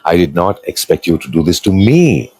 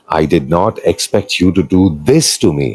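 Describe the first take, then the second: First: The stress falls on the word me. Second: The stress falls on the word this. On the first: It was done to others, but not expected toward me. "the last stress" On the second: Other things were done, but not this one. "you have done many other things"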